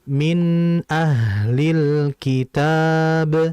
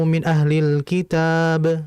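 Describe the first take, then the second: First: The n sound is held and flows briefly. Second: The n sound is passed over too quickly. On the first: The speaker calls it right. "Jadi ditahan nunnya" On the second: The speaker calls it wrong. "Pun jangan terlalu cepat"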